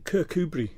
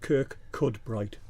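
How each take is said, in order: First: The name is said the local way. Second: The name is said as spelled, syllable by syllable. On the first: The speaker calls it right. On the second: The speaker calls it wrong.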